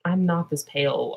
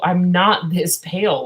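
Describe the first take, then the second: First: Said in the usual way. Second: "not" hit loud and drawn out; slow down and punch "not" in protest; stress on "not". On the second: Real, not acted. Objecting to the skin tone shown, stress on "not". Repeated with heavy emphasis.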